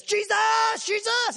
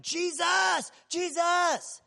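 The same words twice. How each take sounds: First: Full-throated, very high and loud shout; a desperate blind man shouting even louder; yelling louder. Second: High, loud call of a desperate blind man; yelling out. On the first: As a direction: scream over the crowd with everything you've got. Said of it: "He starts yelling louder". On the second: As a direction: cry out to be heard over a crowd. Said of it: "at the top of his lungs, he starts yelling". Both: Retold or imitated.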